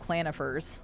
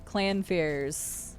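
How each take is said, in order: First: The name is said with three syllables. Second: The name is said with two syllables. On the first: The speaker calls it wrong. "I used to call them clanifers when I was younger" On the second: The speaker calls it right. "figured out how to pronounce their names"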